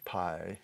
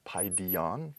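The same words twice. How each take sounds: First: "paidion" repeated softer and clipped short; quiet second take of "paidion". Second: "paidion" said PAI-di-on with a rising end; teacher demo of "paidion"; Greek word paidion. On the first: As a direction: echo "paidion" quietly for the students to copy. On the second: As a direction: model "paidion" for the class. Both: Shown as a demonstration. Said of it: "word for child".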